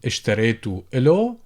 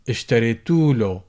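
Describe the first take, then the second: First: The vowel before 'l' is kept. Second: The vowel before 'l' is dropped.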